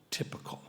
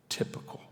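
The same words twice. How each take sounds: First: Quiet. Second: Unvoiced whisper of the title. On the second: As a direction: breathe the word Typical with no voice. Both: Shown as a demonstration. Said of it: "The title of the poem is".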